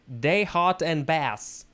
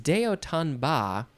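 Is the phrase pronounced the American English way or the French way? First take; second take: American; French. First: It is said with an American English pronunciation. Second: It is said with a French pronunciation. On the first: "if we wanted to pronounce this in English, uh, American English, we would say" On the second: "this is a French phrase"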